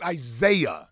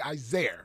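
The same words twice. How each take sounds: First: [name] in three syllables, "eye-ZAY-uh"; corrected [name]. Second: [name] ending in an r, "eye-ZAIR"; mispronounced [name]. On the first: Shown as a demonstration. Correcting his teachers, [name] as "eye-ZAY-uh". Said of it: "No, it's". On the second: Retold or imitated. Quoting teachers who got his name wrong, [name] as "eye-ZAIR". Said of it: "I used to hate it when my teachers would say".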